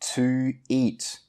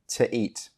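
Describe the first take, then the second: First: The word to is said fully and clearly. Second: The word to is said quickly and reduced.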